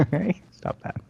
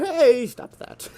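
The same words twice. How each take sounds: First: Much higher playful scold; mock game character. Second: High, slow, hammed-up character voice; much higher, slow cartoon scold; mock game character. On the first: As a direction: echo the parody back, lighter. Echoing the parody. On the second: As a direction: parody the NPC's line, drawn out. Parodying the game character's line.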